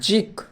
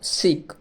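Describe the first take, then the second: First: The syllable begins with a z sound. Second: The syllable begins with an s sound. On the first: The speaker calls it right. "SIC জিক" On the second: The speaker calls it wrong. "Not সিক"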